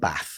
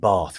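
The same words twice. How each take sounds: First: It is said in a non-southern local accent. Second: It is said in a southern English accent. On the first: This is how the other children said it. "rather than" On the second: This is how the speaker said it as a child. "I got bullied for saying"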